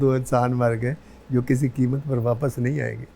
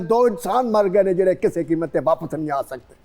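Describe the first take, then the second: First: It is said in a romantic tone. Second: It is said in an angry tone.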